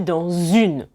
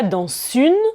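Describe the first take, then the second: First: The two words are joined by a z sound. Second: The two words are not joined by a z sound. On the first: The speaker calls it right. "je prononce en fait comme si c'était un Z" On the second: The speaker calls it wrong. "Je ne dis pas"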